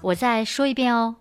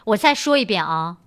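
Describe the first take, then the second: First: It is said in a gentle, soft tone. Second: It is said in a stern, firm tone.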